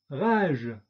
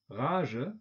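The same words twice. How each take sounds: First: 'rage.' said the French way, ʁaʒ with a released voiced ʒ; French 'rage.' with no schwa. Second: 'Rage' said the German way, with a final schwa, ʀaʒə; German 'Rage' with a trailing schwa; German-style. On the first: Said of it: "von der französischen Aussprache mit Detente". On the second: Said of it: "deutsche Aussprache ... plus Ö, Schwarlaut". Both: Shown as a demonstration.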